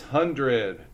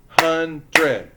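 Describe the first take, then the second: First: Said in the usual way. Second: "Hundred" loudly broken into two beats; "Hundred" in two forceful, separate syllables; split into syllables. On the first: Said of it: "second word is hundred". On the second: Shown as a demonstration. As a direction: clap out "Hundred" as hun, dred. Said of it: "How many syllables?".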